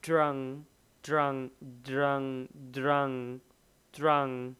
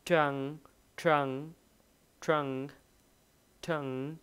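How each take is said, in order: First: Put-on trunk started with a d sound, like drunk; teacher drilling trunk with a d-like onset. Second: Trunk started with a crisp unvoiced t; teacher drilling Trunk with a clean t; t sound. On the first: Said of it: "Cái âm đ là". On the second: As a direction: keep the t of Trunk voiceless. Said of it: "t là nó sẽ như vậy nè". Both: Shown as a demonstration.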